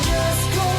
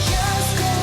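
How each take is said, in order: The two takes are said the same way.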